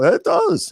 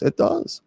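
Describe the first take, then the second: First: Said in the usual way. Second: A soft whispered high repeat of It does; whispered echo. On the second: Shown as a demonstration. Bishop whispering agreement back to himself.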